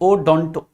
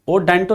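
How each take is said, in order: First: The second syllable has an 'o' vowel. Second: The second syllable has an 'e' vowel. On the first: The speaker calls it right. "बल्कि ओडोंटो" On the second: The speaker calls it wrong. "ओडेंटो नहीं"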